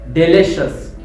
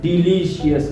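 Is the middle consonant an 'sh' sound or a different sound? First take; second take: sh; different. First: The middle consonant is a clear 'sh' sound. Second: The middle consonant is not an 'sh' sound. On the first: The speaker calls it right. "it makes sound like shush" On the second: The speaker calls it wrong. "not delicious"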